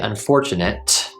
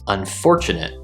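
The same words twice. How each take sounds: First: The final t is clearly released as hard t. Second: The final t is cut off by glottal stop. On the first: The speaker calls it wrong. "we don't say unfortunate, we don't pronounce the hard t" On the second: The speaker calls it right. "we use a glottal stop"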